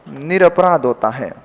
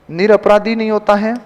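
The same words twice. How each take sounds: First: निरपराध without the final i, lower; निरपराध, dropped and final; correct form, falling. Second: निरपराधी with the final i; निरपराधी said with the extra i; wrong form. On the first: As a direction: close on निरपराध firmly. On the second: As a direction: mark निरपराधी as the mistake. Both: Shown as a demonstration.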